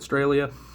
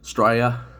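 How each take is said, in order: First: It is said in the speaker's plain accent. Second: It is said in an imitated Australian accent.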